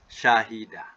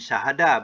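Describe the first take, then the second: First: The second vowel is an 'i' sound. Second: The second vowel is an 'a' sound. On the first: The speaker calls it right. "Bunyinya apa? Syahidah" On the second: The speaker calls it wrong.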